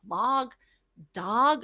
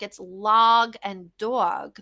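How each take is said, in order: First: "Log" then "dog?" with a Jersey vowel, puzzled rise. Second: "log and dog" said very slowly, each word drawn out. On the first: Jersey mom questioning how "dog" rhymes with "log". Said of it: "that's not how that word sounds". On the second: Mom slowly sounding out "log" and "dog" to her daughter. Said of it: "I'm like". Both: Shown as a demonstration.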